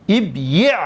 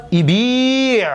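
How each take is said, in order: First: ابیع split as ib-yi', vowel on the y; heavy consonant cluster. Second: ایبیع as i-bii', long drawn-out ii; vowelless ya. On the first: Teacher showing why this form is heavy, split syllables. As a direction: close firmly on b in ابیع, then yi'. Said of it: "ثقیل است". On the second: Teacher showing the vowel moved back, long ii. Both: Shown as a demonstration.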